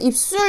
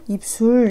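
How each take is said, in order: First: The second syllable starts with a tense s. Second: The second syllable starts with a plain s. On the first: The speaker calls it right. "이렇게 발음한다고" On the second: The speaker calls it wrong. "이렇게 발음 안 하잖아"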